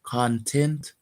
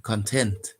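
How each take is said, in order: First: "Content" as KON-tent, stress on the first syllable; "Content" as the noun, KON-tent. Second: "content" as kun-TENT, stress on the second syllable; "content" as the happy adjective, kun-TENT. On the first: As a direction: say "Content" with the weight on KON, like the stuff inside. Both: Shown as a demonstration. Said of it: "the second pronunciation of content".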